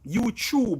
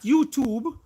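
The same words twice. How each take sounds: First: The second part starts with a ch sound. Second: The second part starts with a plain t sound. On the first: The speaker calls it right. "C H U B E" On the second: The speaker calls it wrong. "Not YouTube"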